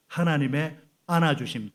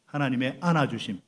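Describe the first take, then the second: First: 안아주심 drawn out and stressed, louder; emphatic phrase. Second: 안아주심 stressed with a falling close; model phrase. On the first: Pastor leading the congregation, stressing 안아주심. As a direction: lead the phrase slowly, leaning on 안아주심. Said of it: "다 같이요". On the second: Pastor modelling the phrase for repetition, firm fall. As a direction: say it for them to repeat, 안아주심 firm. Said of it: "자, 따라합니다". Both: Shown as a demonstration.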